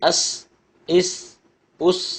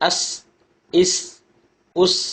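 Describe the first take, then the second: The two takes are said the same way.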